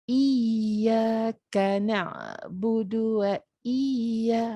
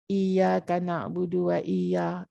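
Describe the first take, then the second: First: The doubled 'y' is pressed hard and held. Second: The doubled 'y' is said lightly, not held. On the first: The speaker calls it right. "Dia Iyyaka na'budu wa iyya" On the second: The speaker calls it wrong. "Kita tak boleh kata Iyyaka na'budu wa iyya. Itu dah baris saja"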